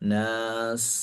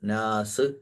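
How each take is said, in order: First: The final s ends with air hissing out. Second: The final s ends with a bouncing release. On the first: The speaker calls it right. "ആ ഒരു കാറ്റ് പുറത്ത് പോകുന്നത്" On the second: The speaker calls it wrong. "നാസ് എന്നൊന്നും പറയരുത്"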